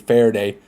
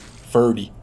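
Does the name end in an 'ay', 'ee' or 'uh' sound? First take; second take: ay; ee. First: The name ends with an 'ay' vowel. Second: The name ends with an 'ee' vowel. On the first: "if I was pronouncing it like Spanish" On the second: "if I was in English"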